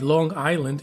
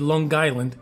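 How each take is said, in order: First: It is said in a standard accent. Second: It is said in a local Long Island accent. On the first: This is how outsiders say it. The speaker calls it wrong. "you don't say Long Island" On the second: This is how people from there say it. The speaker calls it right. "if you're from there, you say Long Island"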